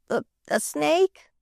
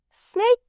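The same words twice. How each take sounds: First: Slow, scared rising snake?; frightened snake question. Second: Very high rising Snake, scoffing; incredulous. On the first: Boy asking the maid about a snake, mildly frightened. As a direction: ask snake? timidly, a touch afraid. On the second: Maid scoffing at the boy's snake fear, incredulous. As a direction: toss the word snake back in disbelief. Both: A narrator's reading.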